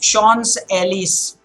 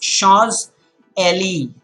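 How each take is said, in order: First: The second word ends with an s sound. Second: The second word ends without an s sound. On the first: The speaker calls it wrong. "oh, sorry, Ellie" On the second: The speaker calls it right. "The last S is also silent there in the second word"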